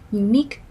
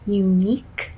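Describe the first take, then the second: First: The phrase is said at a faster pace. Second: The phrase is said at a slower pace.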